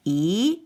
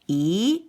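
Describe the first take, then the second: First: The syllable is said with the second tone. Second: The syllable is said with the second tone.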